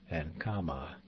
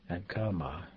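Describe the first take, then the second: The two takes are said the same way.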